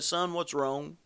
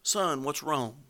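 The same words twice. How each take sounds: First: Soft and low, not raising his voice; gentle, quiet. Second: Softer and slower, a tender plea; slow, quiet tenderness. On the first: Father quietly asks his angry eldest son, softly. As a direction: ask gently like a worried father. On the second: Father pleads with his sulking son, slow and tender. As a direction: coax him gently, drawing it out. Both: Retold or imitated. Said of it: "not raising his voice".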